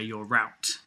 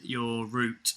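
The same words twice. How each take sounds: First: Route is said the American way, like 'rowt'. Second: Route is said the British way, like 'root'.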